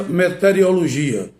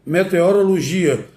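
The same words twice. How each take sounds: First: "meteorologia" garbled as "me-te-rio-lo-gia"; pronúncia inadequada. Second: Said in the usual way. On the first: Shown as a demonstration. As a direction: mispronounce "meteorologia" as "meteriologia". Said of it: "Muita gente pronuncia". ("meteorologia" dito errado, "meteriologia") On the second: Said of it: "A correta é".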